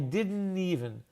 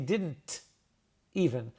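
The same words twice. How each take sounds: First: The T in "didn't" is dropped. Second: The T in "didn't" is clearly pronounced. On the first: "I didn't pronounce the T" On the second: "I didn't say didn't even"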